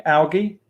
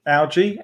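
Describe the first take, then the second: First: "algae" with a hard g, as AL-ghee; questioning "algae", hard g. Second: "algae" with a soft g, as AL-jee; questioning "algae", g like j. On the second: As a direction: try "algae" with a j sound, questioning. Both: Shown as a demonstration. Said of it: "Is it algae or algae".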